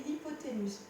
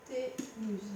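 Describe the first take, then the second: First: Said in the usual way. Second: Syllable by syllable. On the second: Shown as a demonstration. Teacher repeating the term for the student, syllable by syllable. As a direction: say "Hypoténuse" in pieces, as if dictating. Spells out term while writing.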